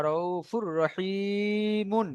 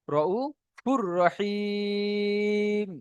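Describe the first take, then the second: First: Slow "রউফুর রহিমুন", long i then "mun"; doubled r between "রউফুর" and "রহিমুন"; voiced-ending recitation. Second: Slow "রউফুর রহিম", the i held very long on a level tone; doubled r between "রউফুর" and "রহিম"; merged recitation. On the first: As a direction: hold the i, finish "রহিমুন" on mun. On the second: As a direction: stretch "রহিম" and stop on m. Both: Shown as a demonstration. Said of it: "এখানে আমরা পড়বো".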